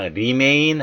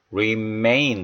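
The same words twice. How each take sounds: First: "remain" with a plain Korean ㄹ in place of English R; careless R. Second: "remain" with a careful English R, stress on the second syllable. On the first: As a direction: say "remain" starting on a light tapped 리. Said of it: "그냥 remain 하지 마시고요". ("remain"의 R을 그냥 '리'로 낸 잘못된 발음) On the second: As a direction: round into the R of "remain" and lean on MAIN. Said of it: "R 사운드 신경 쓰시면서". ("remain"의 R을 살리고 뒤 음절에 강세) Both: Shown as a demonstration.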